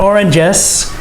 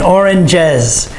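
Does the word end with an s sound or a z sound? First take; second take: s; z. First: The word ends with a hissing s sound. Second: The word ends with a buzzing z sound. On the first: The speaker calls it wrong. "It's not oranges" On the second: The speaker calls it right. "You have to put the jez on the end"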